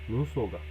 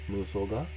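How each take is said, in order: First: The pitch falls at the end. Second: The pitch rises at the end. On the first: The speaker calls it right. "the ending goes down" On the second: The speaker calls it wrong. "Not like nusoga"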